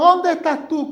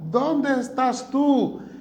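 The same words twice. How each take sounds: First: It is said in an angry, thundering tone. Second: It is said in a gentle, loving tone.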